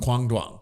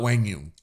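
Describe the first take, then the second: First: The name begins with a hard K sound. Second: The name begins with a W sound. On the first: This is how most people say the name. "I would say it the same way how everyone else does" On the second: This is how the player's family is said to say it. "Rob Cassidy says it's Wang Yung"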